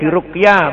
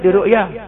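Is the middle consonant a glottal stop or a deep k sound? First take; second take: deep k; glottal stop. First: The middle consonant is a deep k sound. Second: The middle consonant is a glottal stop. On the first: It means being treated with healing recitation. The speaker calls it right. "diruqyah pakai qaf" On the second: It means being seen. The speaker calls it wrong. "Bukan diru'yah"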